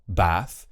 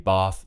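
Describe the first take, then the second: First: It is said in a regional UK accent. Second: It is said in an RP accent. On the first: "in many parts of the U K, you will hear Bath" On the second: "if you're looking for an R P accent ... you will want to say Bath"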